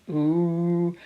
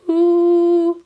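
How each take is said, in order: First: The sound is made at a low pitch. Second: The sound is made at a high pitch. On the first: "low pitch" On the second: "high pitch"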